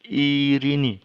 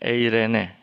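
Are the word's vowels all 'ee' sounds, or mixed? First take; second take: all ee; mixed. First: Every vowel is pronounced as an 'ee' sound. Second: The vowels include 'ay' and 'eh' sounds. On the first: The speaker calls it right. "ini ada contoh kata irini" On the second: The speaker calls it wrong. "itu cara membaca yang kurang tepat"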